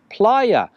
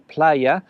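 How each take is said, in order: First: The first syllable sounds like English "ply". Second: The first syllable sounds like English "play". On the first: "more like P L Y with an A on the end" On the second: "use the English word play and add an A to the end"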